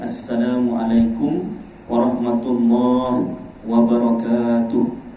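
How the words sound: It is said with a pause for breath.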